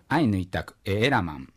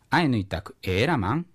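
First: The voice falls at the end. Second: The voice rises at the end. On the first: It states that the listener understands Ainu. "これでお前はアイヌ語がわかるです" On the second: It asks whether the listener understands Ainu. "一番最後を、ちょっと尻上がりに言うと、それでもう疑問の意味を表せる"

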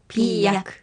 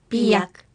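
Both takes have the same delivery.

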